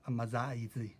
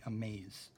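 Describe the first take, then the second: First: Short A, with an extra vowel after z. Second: Long second A, ending on a plain z. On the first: The speaker calls it wrong. "which is wrong, this would be a short A ... pronounce the Z and the E" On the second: The speaker calls it right. "long A in the right way"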